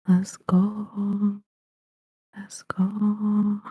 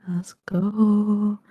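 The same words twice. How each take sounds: First: Hushed unvoiced whisper, building up; whispered hype. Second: Said in the usual way. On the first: Guest whispering herself up before her intro, unvoiced. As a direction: whisper it like a secret countdown. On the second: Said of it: "Let's do it".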